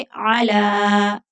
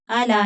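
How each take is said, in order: First: अला with the vowel after the l held very long; stretched vowel. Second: अला with a short unstretched l vowel; अला said quickly, not drawn out; wrong way, short. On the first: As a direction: draw out अला slowly. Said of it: "लाम को थोड़ा खींच कर पढ़ेंगे". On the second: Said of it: "अला नहीं कहेंगे". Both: Shown as a demonstration.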